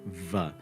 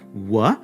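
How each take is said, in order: First: It is a lip-teeth sound with friction, like v. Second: It is a smooth lip sound like English w. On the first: This is how it is said in the North. "In the North, it's pronounced like the English V. even with a little frication" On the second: This is how it is said in the South. "in the South, actually, it becomes a pure labial, almost a, a W in English"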